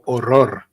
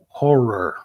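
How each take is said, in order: First: The R sounds are rolled, Spanish-style. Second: The R sounds are soft, English-style. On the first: The speaker calls it right. "Whereas in Spanish, you go horror. And you pronounce all the R's" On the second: The speaker calls it wrong. "the dumbest word in the English language to pronounce is horror"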